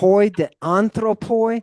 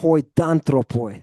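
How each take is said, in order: First: The vowel of 'de' is fully pronounced. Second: The vowel of 'de' is dropped and merged.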